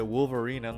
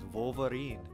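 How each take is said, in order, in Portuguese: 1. O nome é pronunciado do jeito inglês. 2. O nome é pronunciado do jeito português. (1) "em inglês é Wolverine" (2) "eu nunca sabia pronunciar em português"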